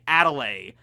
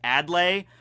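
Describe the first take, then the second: First: A vowel is said between the D and L. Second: No vowel is said between the D and L. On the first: The speaker calls it wrong. "I want to say Adelaide, but there's no other A" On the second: The speaker calls it right. "It's A D L. So I guess it's just Adlai"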